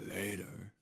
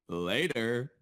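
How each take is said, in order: First: It is said in an Obito impression. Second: It is said in the speaker's normal voice.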